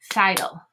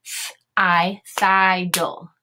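First: Said in the usual way. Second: Thiggle drawn out as thigh-dull; Th-, I, then thiggle split as thigh-dull; sounding out. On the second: Shown as a demonstration. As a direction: sound out thiggle slowly with a long I and a D. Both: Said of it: "open syllable again".

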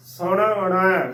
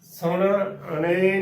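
First: ਸੁਣਨਾ slowly as 'su-na-nai'; ਸੁਣਨਾ drawn out to an open 'ai' ending; dulavan ending. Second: ਸੁਣਨੇ slowly, ending in 'ay'; ਸੁਣਨੇ with a closed 'e' ending; wrong lavan. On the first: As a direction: open the last vowel of ਸੁਣਨਾ into a long 'ai'. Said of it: "ਨਾਣੇ ਨੂੰ ਦੁਲਾਵਾਂ". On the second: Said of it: "ਨਹੀਂ ਉਚਾਰਨ ਕਰਨਾ". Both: Shown as a demonstration.

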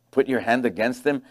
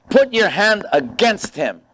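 First: Softer and lower, scornful questioning repeat; mocking disbelief. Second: Slow and higher, pressing the request; devil's demand. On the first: Real, not acted. Pastor scoffing at the devil's request, incredulous. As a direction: echo it back as if it's absurd. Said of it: "Dumb devil". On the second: Retold or imitated. Devil urging God to strike Job, slow. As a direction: lean on it slowly like a scheming tempter. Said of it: "the devil said to God".

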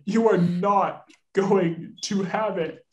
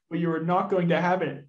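First: Each word of "You are not going to have it" spaced out; slow emphatic refusal. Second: Said in the usual way. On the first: Acted. Master withholding wages from his butler, slow emphatic "not". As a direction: stretch "not" and slow right down.

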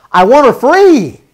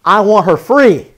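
First: Louder and slower, pressing on free; a preacher's insistent repeat; emphatic repeat. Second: Said in the usual way. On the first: Acted. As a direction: plead it, leaning hard on "free".

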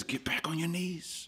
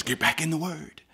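First: Unvoiced whisper of the Spirit; hushed whisper from the Spirit. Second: Soft voice. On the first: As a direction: breathe it like a secret nudge. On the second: Acted. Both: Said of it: "the Holy Spirit says".

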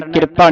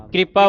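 First: ਕਿਰਪਾ split after the r, with i before it; vowel before R. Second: ਕਿਰਪਾ with the r right after the k; R joined to K. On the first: Teacher warns against the misreading, ਕਿਰਪਾ as "kirpa". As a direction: say ਕਿਰਪਾ as "kir-paa". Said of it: "ਕਿਰਪਾ ਨਹੀਂ ਪੜਨਾ". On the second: Teacher shows half-r under the letter, ਕਿਰਪਾ as "kripa". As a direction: say ਕਿਰਪਾ as "kri-paa". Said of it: "ਕਿਰਪਾ ਉਚਾਰਨ ਕਰਨਾ ਹੈ". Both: Shown as a demonstration.

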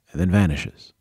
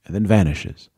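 No difference in how they are said.

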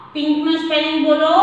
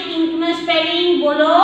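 The two takes are said the same way.

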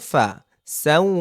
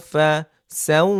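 No difference in how they are said.

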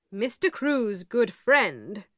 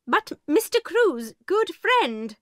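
First: Said in the usual way. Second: High, slow protest from the headmistress; headmistress pleading. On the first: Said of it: "said the lawyer". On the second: A narrator's reading. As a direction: headmistress grasping at hope, much higher. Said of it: "began Miss Minchin".

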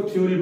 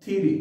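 First: थ्योरी said 'thyoo-ree'; common mispronunciation. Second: थ्योरी said 'thi-ree', no o; correct pronunciation demo. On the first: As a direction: put a 'yu' glide in थ्योरी. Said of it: "बहुत सारे लोग इसको थ्योरी पढ़ते हैं". (थ्योरी का गलत उच्चारण, 'थ्यूरी') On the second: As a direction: model थ्योरी short, dropping the 'yu'. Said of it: "इस वर्ड की जो करेक्ट प्रोनाउंसिएशन है". (थ्योरी का सही उच्चारण, 'थिरी') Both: Shown as a demonstration.

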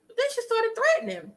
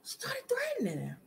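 First: Higher and fast, with mock outrage; high dramatic. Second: A hushed whisper repeating the line; whispered echo. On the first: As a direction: fire it off high and quick. Dramatic retelling, repeated line. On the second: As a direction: drop to a secretive whisper. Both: Shown as a demonstration.

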